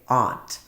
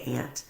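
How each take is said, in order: First: It is said the Washington DC way. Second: It is said the Ohio way. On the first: This is how people raised in Washington DC say it. "My man was raised right here in Washington, D C. You say aunt" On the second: This is how people raised by Ohio parents say it. "My parents were raised in Ohio, so we say aunt"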